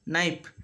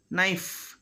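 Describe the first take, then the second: First: KNIFE said as "nipe"; "naip" for KNIFE; final F made P. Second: KNIFE ending in an airy F; "knifff" with friction at the end; clear final F. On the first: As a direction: close the lips on a P to end KNIFE. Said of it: "But we make it". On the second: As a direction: let the F of KNIFE hiss out. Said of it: "at the end of a word". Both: Shown as a demonstration.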